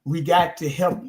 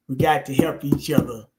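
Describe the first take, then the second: First: "got" slow and weighted; stress on got. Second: Said in the usual way. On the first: Shown as a demonstration. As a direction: lean on "got" in "We got to help". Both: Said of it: "But what I said was".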